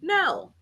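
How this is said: It sounds firm and final, closing the matter.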